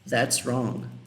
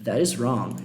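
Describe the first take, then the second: First: 'That is' is shortened into one syllable. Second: 'That is' is said as two full words.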